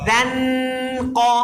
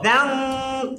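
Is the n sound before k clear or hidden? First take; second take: clear; hidden. First: The n is pronounced clearly at the tongue tip. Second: The n is hidden, nasalized toward the k. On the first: The speaker calls it wrong. "নুনকে ক্লিয়ার সুস্পষ্টভাবে উচ্চারণ করছি" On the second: The speaker calls it right. "কাফের মধ্যে নিয়ে যাবেন"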